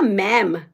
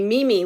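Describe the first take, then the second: First: One syllable with a short vowel, like 'mem'. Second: Two syllables, like 'mee-mee'. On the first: "you're saying it wrong" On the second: "that's not how you say it"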